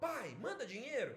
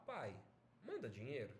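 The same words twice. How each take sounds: First: Higher-pitched, forceful demand; imposition. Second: Low, gentle plea; request. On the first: Teacher showing how intonation makes a demand, imperious. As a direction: order it, don't ask. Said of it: "é uma imposição". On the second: Teacher showing the same phrase as a request, gentle. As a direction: ask softly, pausing after the first word. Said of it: "é um pedido". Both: Shown as a demonstration.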